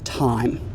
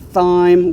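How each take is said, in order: First: The word starts with a plain t sound. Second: The word starts with a th sound. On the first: The speaker calls it right. "we just say" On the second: The speaker calls it wrong. "we do not make the T H sound. We don't say"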